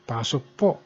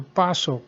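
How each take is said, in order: First: Pasok po said politely, rising on po; a respectful pasok po to an elder; polite pasok po with a lift on po; formal pasok po. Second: Pasok said casually, a slightly higher pitch and falling; a casual pasok to a friend; offhand pasok with a falling end; informal pasok. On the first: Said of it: "in the formal way". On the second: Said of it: "in informal". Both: Shown as a demonstration.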